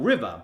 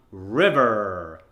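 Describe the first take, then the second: First: "river" short, with no stretch on the end; ED chopped off. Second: "river" with a long American er at the end; stretched ER. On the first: Coach showing what remains, river short and unstretched. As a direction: say "river" briefly, ending unstretched. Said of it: "chop off the E D". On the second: Coach introducing the drill, river with er stretched out. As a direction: hold the last syllable of "river" on a strong r. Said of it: "let's stretch out the er sound". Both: Shown as a demonstration.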